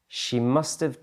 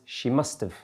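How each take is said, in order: First: Have is pronounced fully as a separate word. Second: Have is reduced and joined onto must. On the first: "She must have taken the train becomes" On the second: "Gets contracted to must have"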